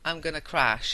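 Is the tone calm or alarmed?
calm. It is said calmly and casually.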